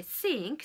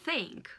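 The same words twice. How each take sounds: First: Sink, tongue behind the teeth; plain s sound. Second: Think, breathy TH, not S; th sound. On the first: Teacher contrasts sink with think for learners, crisp S. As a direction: sink with a clean hissed S, no TH. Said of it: "par comparaison à I think". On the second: Teacher shows learners the TH in think, carefully. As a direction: think with tongue between the teeth. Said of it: "Vous mettez la langue entre vos dents". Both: Shown as a demonstration.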